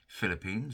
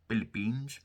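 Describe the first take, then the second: First: The word begins with an F sound. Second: The word begins with a P sound.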